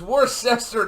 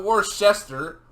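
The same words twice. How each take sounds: First: "Worcester" with an s sound opening the second syllable; corrected pronunciation. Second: "Worcester" with sh opening the second syllable, drawn out; mistaken pronunciation. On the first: Correcting a friend's Worcester, second syllable starting with a plain s. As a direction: say "Worcester" as wor-SESS-ter. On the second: Mimicking a friend's mistake in Worcester, second syllable starting with sh. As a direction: say "Worcester" slowly as wor-SHESS-ter. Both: Shown as a demonstration. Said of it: "not Worcester".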